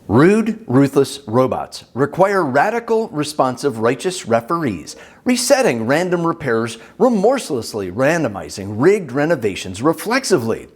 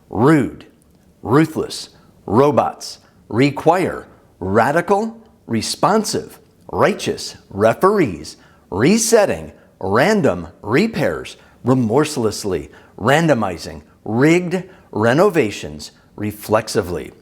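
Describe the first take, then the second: First: It is said at normal speaking speed. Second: It is said slowly, word by word.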